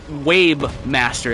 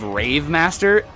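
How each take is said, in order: First: The first word is said with W and B sounds. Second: The first word is said with R and V sounds.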